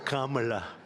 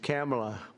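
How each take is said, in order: First: The first syllable sounds like 'calm'. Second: The first syllable sounds like 'cam'. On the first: "It's opposed to Kamala" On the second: "fortunately it's pronounced different. It's Kamala"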